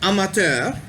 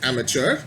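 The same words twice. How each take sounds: First: The word is pronounced the French way. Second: The word is pronounced the English way. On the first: The speaker calls it right. "the correct way to pronounce it would be amateur, because that, of course, is a French word" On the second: The speaker calls it wrong. "we, in English, of course, we say it as amateur"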